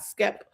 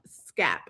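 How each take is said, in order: First: The vowel sounds like the 'e' in 'step'. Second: The vowel sounds like the 'a' in 'cap'. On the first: The speaker calls it wrong. "not Skep" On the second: The speaker calls it right. "So it's act it's Scap"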